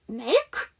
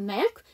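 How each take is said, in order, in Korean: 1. 마지막 K 소리가 완전히 발음됩니다. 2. 마지막 K 소리가 거의 들리지 않습니다. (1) "정확하게 K 발음 안 하셔도 돼요" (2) "K 발음이 들리랑 말랑 이렇게 하시면 돼요"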